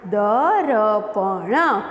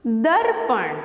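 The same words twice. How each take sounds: First: "द र प ण" said slowly, one sound at a time; slow letter-by-letter spelling; broken into sounds. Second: Said in the usual way. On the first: Shown as a demonstration. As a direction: split दर्पण into द, र, प, ण with little gaps. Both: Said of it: "break करके बोलते हैं ना हम".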